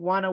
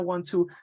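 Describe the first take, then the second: First: The words blend into the reduced form wanna. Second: The two words are said fully and separately. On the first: The speech is more informal. "when they say wanna, it's more informal" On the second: The speech is less informal. "I said want to"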